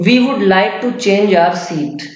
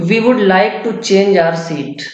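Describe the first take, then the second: Both takes have the same delivery.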